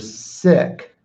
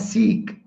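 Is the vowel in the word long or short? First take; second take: short; long. First: The vowel is a short 'i' sound. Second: The vowel is a long 'ee' sound. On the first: The speaker calls it right. "You're sick" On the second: The speaker calls it wrong. "You're not seek"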